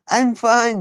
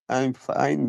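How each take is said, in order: First: It is said in a cheerful, convincing tone. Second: It is said in a flat, downbeat tone. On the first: The person really is fine. The speaker calls it right. "you should sound like the, you are fine" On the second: The person is not really fine. The speaker calls it wrong. "not very convincing"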